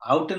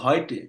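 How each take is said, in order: First: The first vowel sounds like 'ow'. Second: The first vowel sounds like 'oy'. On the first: The speaker calls it wrong. "আউটে না তো" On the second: The speaker calls it right.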